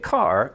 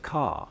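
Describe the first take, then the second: First: "car" with a hard, fully sounded R; Canadian R. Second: "car" as a long open "cah", no R; English R-less vowel. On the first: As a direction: say "car" with the tongue raised into the R. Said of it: "you're not gonna get car". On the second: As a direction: say "car" with the back of the tongue down, dropping the R. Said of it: "you're gonna get car". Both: Shown as a demonstration.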